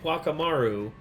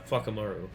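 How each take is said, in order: First: The name begins with a W sound. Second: The name begins with an F sound. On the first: "it's spelled" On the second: "they say Fuckamaru because of the Maori pronunciation"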